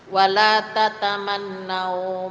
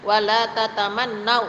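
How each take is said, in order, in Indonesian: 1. Bunyi 'au' di akhir lembut dan lemas. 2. Bunyi 'au' di akhir terputus tiba-tiba. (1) "dibaca lemas" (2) "jangan dikagetkan"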